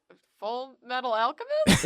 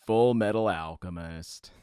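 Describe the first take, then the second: First: Unsure questioning title read. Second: Low, slow announcer voice. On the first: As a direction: ask it like a confused question. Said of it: "a questioning tone". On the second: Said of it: "I'm gonna do the announcer voice". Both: Shown as a demonstration.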